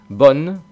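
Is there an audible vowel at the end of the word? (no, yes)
no. It ends on the n with no final vowel. This is how it is said in the north. "En el norte a lo mejor pronuncian bon, Esa E final no suena prácticamente nada"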